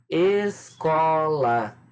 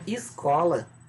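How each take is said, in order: First: The first vowel sounds like 'e'. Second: The first vowel sounds like 'i'. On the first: The speaker calls it right. "Pronunciem bem a palavra" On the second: The speaker calls it wrong. "os alunos vão escrever escola, com i"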